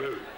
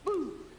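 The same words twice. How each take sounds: First: It is said in a deep, low voice. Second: It is said in a high-pitched voice. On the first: The speaker calls it right. "you must have a, a deep voice" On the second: The speaker calls it wrong. "you can't have a high voice and be in a horror movie? ... that doesn't work"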